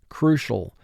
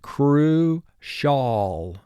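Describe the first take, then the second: First: The final syllable is reduced and quick. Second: The final syllable has a clear full vowel.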